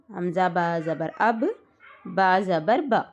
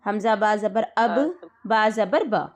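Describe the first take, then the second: First: حمزہ با زبر اب read slowly, the ب stopped with jazm; slow careful read of اب with a still ب; jazm reading demo, slow. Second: اب and با joined, the ب doubled and pressed hard; tashdeed reading demo. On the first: Teacher slowly reading the jazm version for a student. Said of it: "ایک بار جزم لگا دیں گے ہم". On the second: Teacher showing a student the doubled ب of tashdeed. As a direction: read با زبر با with the ب doubled, stressed. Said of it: "ایک بار ایسا پڑھیں گے اس کو". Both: Shown as a demonstration.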